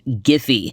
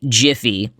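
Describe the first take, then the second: First: The name begins with a hard g sound. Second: The name begins with a soft j sound. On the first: The speaker calls it right. "properly pronounced Giphy" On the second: The speaker calls it wrong. "not Jiffy, like the campfire popcorn"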